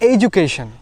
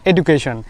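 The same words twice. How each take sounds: First: The middle consonant is a j sound. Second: The middle consonant is a plain d sound. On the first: The speaker calls it right. "D U থাকলে উচ্চারণ হয় জু" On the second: The speaker calls it wrong. "It's not education"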